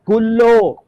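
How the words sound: The final vowel is pronounced as o. This is the Western Aramaic dialect form. "muncul huruf vokal O"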